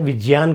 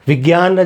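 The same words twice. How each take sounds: First: The middle cluster sounds like j plus ny. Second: The middle cluster sounds like g plus y. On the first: Nobody says it this way in everyday speech. The speaker calls it wrong. "कोई नहीं बोलता" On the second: This is how people commonly say it. The speaker calls it right. "जैसे हम बोलते हैं"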